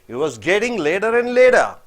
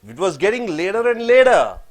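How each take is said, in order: Both takes have the same delivery.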